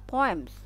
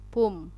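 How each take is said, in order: First: The first vowel is read as two sounds 'oh-uh'. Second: The first vowel is read as a single 'oo'. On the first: The speaker calls it right. "Padahal poems" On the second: The speaker calls it wrong. "Itu jadi baca u"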